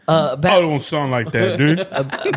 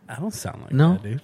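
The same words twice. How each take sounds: First: The line is said forcefully, with full conviction. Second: The line is said casually, without force.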